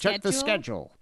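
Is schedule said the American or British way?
American. Schedule is said with an American pronunciation. The speaker calls it right.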